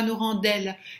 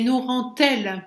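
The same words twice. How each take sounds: First: Rend does not link with a t sound. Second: Rend links to elle with a t sound. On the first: The speaker calls it wrong. "pas nous rend-elle" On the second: The speaker calls it right. "on prononce comme un T"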